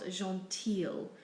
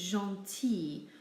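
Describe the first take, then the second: First: The ending is said with an L sound. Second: The ending is said with an ee sound. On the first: The speaker calls it wrong. "not gentille" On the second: The speaker calls it right. "It's gentil"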